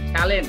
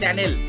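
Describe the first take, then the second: First: The word ends with a clear 'lent' sound. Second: The word ends with a 'nel' sound. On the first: The speaker calls it right. "আমরা যেটাকে বলি ট্যালেন্ট" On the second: The speaker calls it wrong. "ওইটাকে বলতেছে ট্যানেল"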